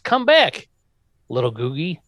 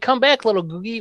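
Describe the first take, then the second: First: It is said calmly, with a comma pause. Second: It is exclaimed loudly, like a shout.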